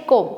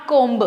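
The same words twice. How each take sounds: First: Comb said without the b, as kohm; teacher modelling comb, b silent. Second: Comb said with the b, as komb; teacher showing the wrong comb with b; b sounded. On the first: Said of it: "बी होता है silent". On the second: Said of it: "not comb". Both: Shown as a demonstration.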